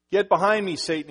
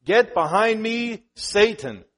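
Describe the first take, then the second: First: Loud firm command, quicker; Jesus rebuking Peter, a loud firm command; stern rebuke. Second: Loud, slow, forceful command; Jesus rebuking Peter, slow loud forceful command; stern rebuke. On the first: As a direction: bark the quote of Jesus. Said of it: "he says". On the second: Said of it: "he rebuked Peter". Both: Acted.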